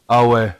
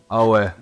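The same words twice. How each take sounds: The two takes are said the same way.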